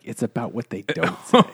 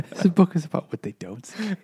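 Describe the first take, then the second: First: Mock literary reading. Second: Laughing while mocking "what they don't say"; laughing through it. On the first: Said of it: "and be like". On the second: Real, not acted. Joking with friends about a book, laughing. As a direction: giggle through the mock line.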